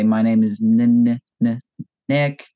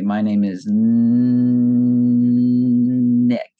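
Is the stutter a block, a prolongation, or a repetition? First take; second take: repetition; prolongation. First: The first sound of Nick is repeated. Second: The first sound of Nick is stretched out.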